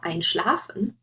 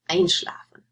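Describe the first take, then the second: First: The stress is on the second syllable. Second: The stress is on the first syllable. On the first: The speaker calls it wrong. "You wouldn't say" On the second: The speaker calls it right. "You would say"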